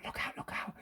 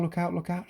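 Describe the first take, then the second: First: Full breathy whisper of "look out, look out"; urgent stage whisper. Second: Softer try at "Look out, look out"; trying a whisper. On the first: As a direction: whisper the warning. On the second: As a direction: test it half-whispered. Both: Shown as a demonstration. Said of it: "Is he whispering".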